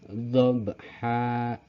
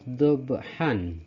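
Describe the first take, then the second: First: The word ends on a plain a vowel. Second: The word ends with an n sound.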